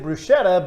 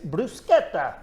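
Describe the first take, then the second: First: It is pronounced the common American way. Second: It is pronounced the authentic Italian way. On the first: This is how many local people say it. The speaker calls it wrong. "You guys may pronounce it bruschetta" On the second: This is how it is said in Italian. The speaker calls it right. "but it's bruschetta"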